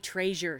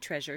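First: It is said with a Southern US accent. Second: It is said with a standard American accent. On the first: This is how a Southern grandmother says it. "my grandmother would say treasure" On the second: This is how a Southern grandmother would not say it. "She wouldn't say treasure"

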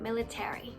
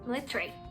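First: It is said in an American accent. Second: It is said in a British accent. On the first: "ถ้าเป็น American ก็จะเป็น" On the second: "British มันจะเป็น"

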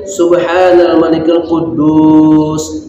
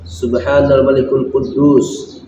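First: It is said loudly. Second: It is said softly.

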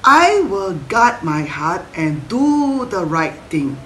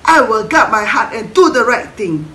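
First: It is said at a normal pace. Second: It is said very fast.

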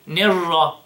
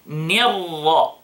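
First: The i vowel after n is not spread. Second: The i vowel after n has spread lips. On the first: The speaker calls it wrong. "Don't say نِرَّ, نِرَّ, no, no, no, no, no. That's wrong" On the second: The speaker calls it right. "With the correct pronunciation of the kasra of the noon. So ni, ni, smile with it"

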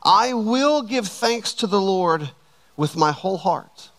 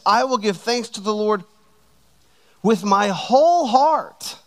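First: It is read with ordinary emphasis. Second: It is read with strong extra emphasis.

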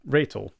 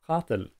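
First: It is pronounced the English way. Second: It is pronounced the Afrikaans way.

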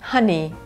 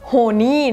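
First: The first syllable sounds like 'ha'. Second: The first syllable sounds like 'ho'. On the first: The speaker calls it right. "เป็น ha" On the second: The speaker calls it wrong. "ไม่ออกเสียงว่า honey นะไม่ใช่ ho"

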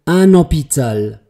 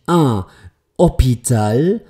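First: The n sound flows into the following word. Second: The two words are said separately without linking. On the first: The speaker calls it right. "ich spreche das N aus und lasse es hineinfließen" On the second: The speaker calls it wrong. "jetzt heißt es eben nicht un Hôpital"

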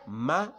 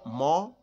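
First: The syllable is light, with an open a vowel. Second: The syllable is heavy, with a rounded o vowel. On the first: The speaker calls it right. "It is not mo because it is terqiq, not tafkhim" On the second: The speaker calls it wrong. "Don't say mo"

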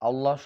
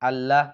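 First: The l sound is heavy and thick. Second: The l sound is light and thin. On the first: The speaker calls it right. "আল্লাহ শব্দটি সবসময় আপনারা মোটা করে বলবেন" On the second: The speaker calls it wrong. "আল্লাহ বলবেন না"

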